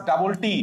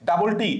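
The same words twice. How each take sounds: The two takes are said the same way.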